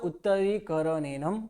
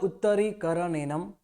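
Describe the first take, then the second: No difference in how they are said.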